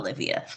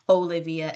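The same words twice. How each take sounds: First: The name begins without a full 'oh' vowel. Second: The name begins with a full 'oh' vowel. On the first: The speaker calls it wrong. "and not" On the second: The speaker calls it right. "pronounce their name with the O pronunciation"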